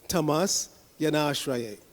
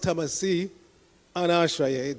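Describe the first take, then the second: First: The words are joined, the i becoming y. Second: The two words are said separately, ending in i. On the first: The speaker calls it right. "you run those two words together" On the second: The speaker calls it wrong. "if you pronounce tamasi, anashraya, then it doesn't work"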